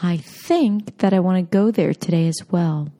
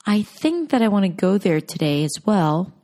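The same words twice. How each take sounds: First: "think", "go" and "today" long and stressed, "that I want to" reduced; stress-timed, with content words stretched; native English rhythm. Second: Every word in "I think that I want to go there today as well" given equal length and weight; even, syllable-timed delivery with no reduced words; flat non-native rhythm, all words the same. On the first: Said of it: "when spoken by native speakers". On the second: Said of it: "when spoken by non-native speakers". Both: Shown as a demonstration.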